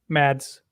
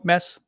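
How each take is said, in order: First: The name is said with a d sound. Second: The name is said with no d sound. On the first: This is how people say it after seeing it written. "as soon as they saw it in writing that there was a D in there" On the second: This is how the family says the name. "Like no D sound at all"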